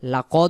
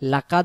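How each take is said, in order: First: No vowel is heard before the final consonant. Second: A vowel is heard before the final consonant. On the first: The speaker calls it right. "লাকদ হবে" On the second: The speaker calls it wrong. "লাকাদ হবে না"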